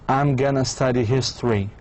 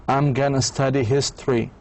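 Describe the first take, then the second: Both takes have the same delivery.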